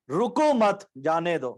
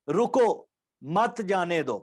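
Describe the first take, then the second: First: رکو مت run together, pause, slow جانے دو; no stop after رکو. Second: رکو alone, a clear break, then مت جانے دو; pause after رکو. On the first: Teacher shows the changed meaning, pausing only after مت. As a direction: join مت onto رکو, break before جانے دو. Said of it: "اگر رکو پہ نہیں رکیں گے". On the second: Teacher shows how stopping changes meaning, pausing after رکو. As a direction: stop on رکو, keep مت joined to جانے دو. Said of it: "اگر ہم رکو پہ رکیں گے". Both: Shown as a demonstration.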